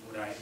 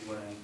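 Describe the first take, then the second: No difference in how they are said.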